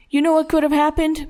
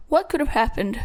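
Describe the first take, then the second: First: Higher-pitched, heated challenge; angry demand. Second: Small, timid squeak of a question. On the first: Father with belt confronts his son, angrily. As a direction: press him like a father losing patience. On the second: Cornered son dares to answer his father, squeaking. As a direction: dare a meek question back. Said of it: "The voice he spoke in squeaked". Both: A narrator's reading.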